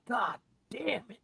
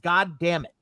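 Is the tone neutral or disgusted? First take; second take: disgusted; neutral. First: It is said in a disgusted tone. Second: It is said in a neutral tone.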